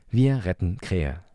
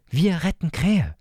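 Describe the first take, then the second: First: Said in the usual way. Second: Hohe, langsame Kinderstimme, Krähe betont; kleiner Bruder. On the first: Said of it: "seufzte ich". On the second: Acted. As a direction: eindringlich wie ein Kind wiederholen. Leo wiederholt als Kind. (hohe, gedehnte Kinderstimme)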